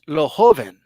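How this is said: The name is pronounced with Spanish sounds. "in Spanish"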